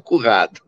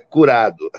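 First: The middle r is a strong throaty sound. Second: The middle r is a light tap. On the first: The speaker calls it wrong. "não currado" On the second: The speaker calls it right. "é curado"

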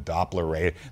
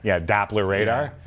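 First: It is said in a plain Canadian accent. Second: It is said in a put-on American accent.

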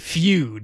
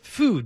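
First: The vowel starts with a y glide. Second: The vowel is a plain oo sound. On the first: The speaker calls it wrong. "Don't say feud, like a feud between two people" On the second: The speaker calls it right. "They want you to pronounce it food"

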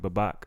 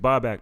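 First: The name is said as its spelling looks. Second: The name has its careful original pronunciation. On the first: This is how people in the neighborhood say it. "they call me Babak" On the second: This is how the name is properly said. "my name is Babak"

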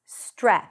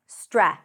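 No difference in how they are said.

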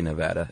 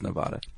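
First: It uses the pronunciation heard from local residents. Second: It uses the pronunciation heard from non-local speakers. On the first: This is how residents of the state say it. "only people from Nevada say Nevada" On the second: This is how people elsewhere say it. "Everyone else says Nevada"

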